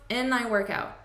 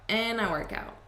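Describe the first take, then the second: Both takes have the same delivery.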